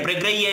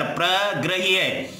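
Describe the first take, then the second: First: Said in the usual way. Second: प्रग्रह्य drawn out part by part; प्रग्रह्य at careful teaching pace; slow syllable breakdown. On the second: Shown as a demonstration. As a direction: split प्रग्रह्य slowly into प्र and ग्रह्य. Teacher repeats the word broken up.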